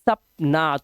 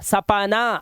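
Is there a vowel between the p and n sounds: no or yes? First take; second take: no; yes. First: No vowel is sounded after the p. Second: A full vowel is sounded after the p. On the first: The speaker calls it right. "आप बोलते हैं सपना, सपना। तो पाया ना, वो आधा है" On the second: The speaker calls it wrong. "आप ऐसे नहीं बोलते सपना"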